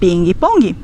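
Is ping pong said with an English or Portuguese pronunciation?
Portuguese. It is said with Brazilian Portuguese pronunciation. "nós vamos dizer"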